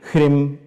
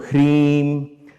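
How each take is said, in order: First: The vowel is short and clipped. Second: The vowel is drawn out long. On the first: The speaker calls it wrong. "it's not Hrim" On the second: The speaker calls it right. "you have to lengthen that"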